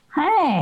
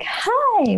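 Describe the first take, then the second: First: It is said in a grumpy, flat voice. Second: It is said in a cheerful, bright voice.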